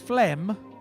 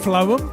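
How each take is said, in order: First: It is one syllable, sounding like phlegm. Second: It is two syllables, rhyming with poem. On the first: The speaker calls it wrong. "which to me is phlegm" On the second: The speaker calls it right. "like poem"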